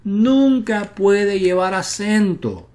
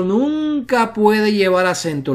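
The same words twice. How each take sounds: First: "nunca" high and slow, each word weighed; stress on nunca. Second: "nunca" raised and stretched, slow; stress on nunca. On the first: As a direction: say "nunca" higher, slowly. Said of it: "la sheva". ("nunca" agudo, pausado) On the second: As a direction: lift and hold "nunca" slowly. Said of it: "Pero si la penúltima sílaba llevase una sheva". ("nunca" más agudo y lento) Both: Shown as a demonstration.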